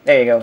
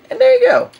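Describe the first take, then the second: First: Said in the usual way. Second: Much higher, playful "there you go"; squeaky high voice. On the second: Pretend.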